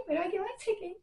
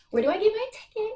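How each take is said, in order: First: High but much softer, eager; excited hush. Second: Excited squeal. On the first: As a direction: keep it high but drop to a near murmur. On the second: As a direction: ask it bursting with excitement. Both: Real, not acted. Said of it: "I'm super excited".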